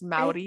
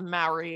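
First: The word is said with a native-sounding pronunciation. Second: The word is said with an anglicized pronunciation. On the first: The speaker calls it right. "it's Maori" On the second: The speaker calls it wrong. "it's not Maori"

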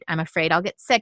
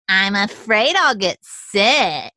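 First: It is said in a normal voice. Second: It is said in a whiny voice.

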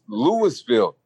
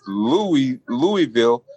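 First: The first part is said like 'Lewis'. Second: The first part is said like 'Louie'. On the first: "it's Louis, like St. Louis" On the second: "like King Louis, the city was named after"

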